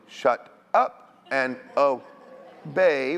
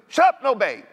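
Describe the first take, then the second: First: It is said at a slow pace. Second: It is said at a quick pace.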